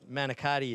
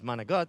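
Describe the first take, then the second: First: The word is said with all its syllables. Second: The word is clipped, dropping its final vowel. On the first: The speaker calls it wrong. "is not the proper way to say it" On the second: The speaker calls it right. "I grew up with"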